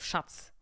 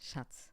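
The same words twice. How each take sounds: First: The word is said hard and harshly. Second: The word is said softly and gently. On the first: "instead of" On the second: "you can say every word more softer"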